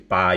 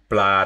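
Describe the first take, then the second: First: No L sound follows the first consonant. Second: An L sound follows the first consonant. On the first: "blah turns into ba" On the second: "they say ba la ah blah with the L in there"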